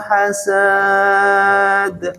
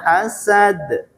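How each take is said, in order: First: The final vowel is drawn out long. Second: The final vowel is kept short. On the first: The speaker calls it wrong. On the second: The speaker calls it right.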